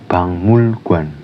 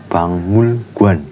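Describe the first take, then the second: Both takes have the same delivery.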